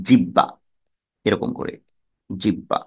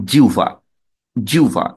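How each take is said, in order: First: জিব্বা with a doubled b, the h dropped; wrong pronunciation. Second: জিহ্বা said as jiuva, h and b turned into u and v; correct pronunciation. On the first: Teacher showing students a common mispronunciation, জিব্বা. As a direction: say জিব্বা as jibba, a common mistake. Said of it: "কেউ কেউ উচ্চারণ করি ভুল উচ্চারণ". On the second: Teacher demonstrating the right sound of জিহ্বা to students. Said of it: "তাহলে এটার উচ্চারণ হবে". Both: Shown as a demonstration.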